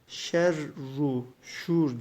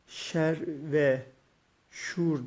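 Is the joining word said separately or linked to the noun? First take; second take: linked; separate. First: The conjunction is linked as 'u' to the noun. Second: The conjunction is a separate word, 've'. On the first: The speaker calls it right. "şerru şuur diye tamlamalı bir şekilde okuyoruz" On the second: The speaker calls it wrong. "şer ve şuur diye değil de"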